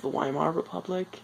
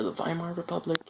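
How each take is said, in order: First: "Weimar" starting with a w sound, "WHY-mar"; Weimar with English W. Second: "Weimar" starting with a v sound, "VY-mar"; Weimar with German V. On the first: Vlogger trying a name both ways, "Weimar" with a w sound. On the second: Vlogger offering the other pronunciation, "Weimar" with a v sound. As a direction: quickly correct "Weimar" to "VY-mar". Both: Shown as a demonstration. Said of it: "or the Weimar Republic".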